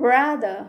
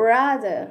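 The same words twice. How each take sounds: The two takes are said the same way.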